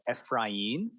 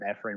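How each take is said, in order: First: The name is said with a Hispanic pronunciation. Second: The name is said with an American pronunciation. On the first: "it's in Honduras. It's called, it's pronounced like Efrain" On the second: "which is the more American uh, pronunciation for it"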